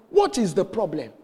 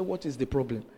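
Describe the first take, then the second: First: Lightly urgent, firmly put question; retold startled question. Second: Lower, softer measured question; retold calm pastor. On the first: Asking the crying woman at the door, mild retold alarm. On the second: Pastor to the distraught mother, low calm question. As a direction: play the pastor asking quietly. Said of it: "Pastor said".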